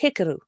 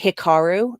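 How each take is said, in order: First: The stress falls on the first syllable. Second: The stress falls on a later syllable. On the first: The speaker calls it right. "put the emphasis on the first syllable" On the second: The speaker calls it wrong. "which people always say Hikaru. No, that's not it"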